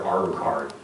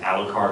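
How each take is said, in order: First: "Alucard" with Japanese R for the L; second disputed pronunciation. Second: "Alucard" with an English L; first disputed pronunciation. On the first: Actor citing the fan battle, "Alucard" said Japanese-style with an R. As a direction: say "Alucard" as if spelled Arucard. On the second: Actor citing the fan battle, "Alucard" said with an L. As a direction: say "Alucard" with a clear L sound. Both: Shown as a demonstration. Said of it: "is it Alucard or Alucard".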